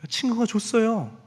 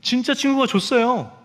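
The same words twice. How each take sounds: First: Put-on child's answer. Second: Put-on insistent child. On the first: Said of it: "너 이거 장난감 어디서 났어?". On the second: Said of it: "그랬더니".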